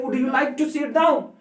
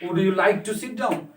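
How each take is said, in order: First: Would you like to sit down? asked high with the voice rising on down; rising question tune. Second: Said in the usual way. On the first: Shown as a demonstration. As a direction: lift the whole question higher and rise on down. (सवाल की तरह ऊँची आवाज़, down पर सुर ऊपर उठाएँ) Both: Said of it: "He said to them".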